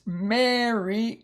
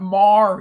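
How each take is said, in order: First: "Mary" said slowly as MEH-ree, stress on the first syllable; correct reading Mary. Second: "Mar" said slowly and louder as a clipped one-syllable mar; wrong reading Mar. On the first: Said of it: "It's Mary". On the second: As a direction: say "Mar" like the car word, slow and loud, to show the mistake. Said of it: "It's not Mar". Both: Shown as a demonstration.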